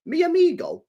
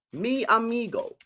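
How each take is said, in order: First: "Mi amigo?" asked high and questioning; realising question. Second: "Mi amigo." said slowly, savouring each syllable; slow trying-out. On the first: Streamer realising his phrase may not be French, questioning. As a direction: check "Mi amigo?" as a sudden doubt. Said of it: "Oh, wait a sec". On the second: Streamer sounding out the phrase to judge its language, slow. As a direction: test "Mi amigo." slowly aloud. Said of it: "Maybe, maybe that is French". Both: Shown as a demonstration.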